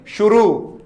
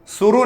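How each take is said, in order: First: "शुरू" said with a clear sh sound at the start; correct pronunciation, with sh. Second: "शुरू" said with a plain s sound, marked as wrong; wrong pronunciation, with s. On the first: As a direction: give "शुरू" with a proper sh. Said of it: "स और श". ("शुरू" को सही श ध्वनि के साथ) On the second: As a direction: say "शुरू" with a sharp s, as the mistake. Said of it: "शुरू नहीं". ("शुरू" को स वाली गलत ध्वनि में) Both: Shown as a demonstration.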